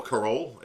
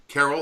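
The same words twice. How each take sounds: First: Carol said the Portuguese way; Portuguese pronunciation. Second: Said in the usual way. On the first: Shown as a demonstration. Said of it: "as they say in, uh, Portuguese". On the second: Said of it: "Carol, or Carol, as they say".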